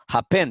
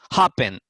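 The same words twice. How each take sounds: First: The stress is on the second syllable. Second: The stress is on the first syllable. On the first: The speaker calls it wrong. "no decimos happen" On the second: The speaker calls it right. "decimos happen"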